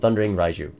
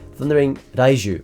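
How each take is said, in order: First: The name is said with an American pronunciation. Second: The name is said with a Japanese pronunciation. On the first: "that's the American pronunciation" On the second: "That would be the Japanese pronunciation"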